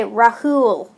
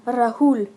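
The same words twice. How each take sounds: First: "Rahul" with a heavy American r; American mispronunciation. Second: "Rahul" said the Indian way, with a light r; native pronunciation. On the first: Retold or imitated. Vlogger mimicking Americans saying the name, Americanized "Rahul". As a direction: say "Rahul" as an American would, drawn out. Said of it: "They'll say Rahul". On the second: Shown as a demonstration. Vlogger showing the name before mimicking Americans, Indian-style "Rahul". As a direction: say "Rahul" as an Indian speaker would. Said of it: "ask any American to pronounce".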